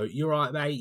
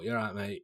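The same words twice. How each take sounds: First: It is said in a London accent. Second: It is said in a Manchester accent.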